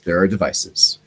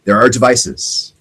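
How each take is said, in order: First: Hushed confiding. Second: Slow reveal. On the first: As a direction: drop to a low, soft conspiratorial voice. Hushed repeat after "Oh yes. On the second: Dramatic reveal of jamming devices. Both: Acted.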